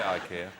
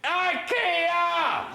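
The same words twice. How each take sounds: First: It is said at normal, quiet volume. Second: It is shouted very loudly.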